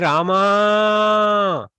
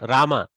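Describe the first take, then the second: First: It is shouted with the final vowel drawn out. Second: It is said curtly with short vowels. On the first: Calling to someone far away. "Sorry for shouting that into your ears" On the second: Addressing someone nearby. "with just a curt Rama like that"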